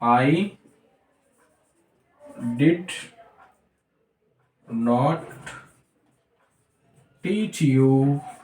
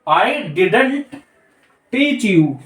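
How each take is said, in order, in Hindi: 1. "Did" और "not" दो पूरे शब्दों की तरह बोले जाते हैं। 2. "Did" और "not" मिलकर "didn't" की तरह बोले जाते हैं।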